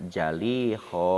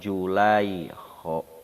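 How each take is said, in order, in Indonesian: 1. Vokal pertamanya bunyi 'a'. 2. Vokal pertamanya bunyi 'u'. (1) "Bisa dipatahkeun jaina" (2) "Lamun dibaca jaina domah"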